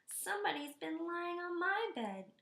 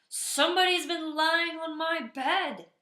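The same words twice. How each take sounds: First: It is said in a small, high voice. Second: It is said in a big, gruff voice.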